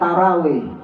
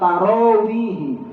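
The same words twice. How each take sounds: First: The R is followed by a plain a vowel. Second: The R is followed by a rounded o-like vowel. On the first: The speaker calls it wrong. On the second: The speaker calls it right. "nggak ada ra, dia harusnya ro"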